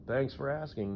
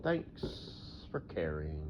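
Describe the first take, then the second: First: Said in the usual way. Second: Slow, soft, deadpan thanks; dry sarcasm. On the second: Acted. Thanking the imagined asker, dry and sarcastic. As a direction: drag out "Thanks for caring" slowly and quietly.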